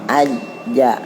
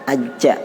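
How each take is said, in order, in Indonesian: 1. Konsonan akhirnya ditahan tanpa desis. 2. Konsonan akhirnya dilepas dengan desis. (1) "kalau dia nempel itu menghilangkan desisnya" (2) "itu kan desis"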